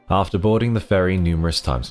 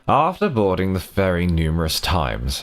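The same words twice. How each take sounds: First: It is read in a plain, ordinary voice. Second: It is read in a put-on, very posh voice.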